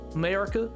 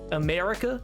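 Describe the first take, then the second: First: It sounds bright, with all three vowels sounded. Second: It sounds bright, with all three vowels sounded.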